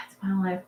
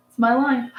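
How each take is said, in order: First: Softer sighing resignation; resigned sigh. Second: Said in the usual way. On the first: Shown as a demonstration.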